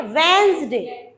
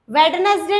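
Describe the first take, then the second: First: वेंसडे slow and clear, wenz-day, d silent; वेंसडे said slowly, no ne sound; correct pronunciation. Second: वेडनेसडे with every letter said, wed-nes-day; वेडनेसडे the wrong way, all letters sounded; wrong pronunciation. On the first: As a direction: model it slowly, the right way. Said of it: "क्या बोलना है?". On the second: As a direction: spell it out as written, the wrong way. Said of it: "वेडनेसडे नहीं बोलना है". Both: Shown as a demonstration.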